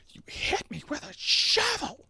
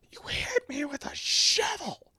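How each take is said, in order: First: Much higher, mock-outraged squeal; shrieked quote. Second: Slow, breathy whisper of the line; whispered quote. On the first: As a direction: fling it out like an indignant accusation. Using movie line as comeback. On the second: Retold or imitated. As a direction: hush it like a wounded aside. Quoting favorite movie line.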